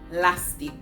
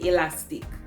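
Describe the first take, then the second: First: It is said without the first vowel. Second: It is said with the first vowel. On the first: "we throw away the E at the beginning" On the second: "We do not say elastic"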